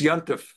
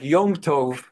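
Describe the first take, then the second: First: It is said as one contracted word. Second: It is said as two full words. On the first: This is the Yiddish form used by common people. "becomes Yontif" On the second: This is the original Hebrew form.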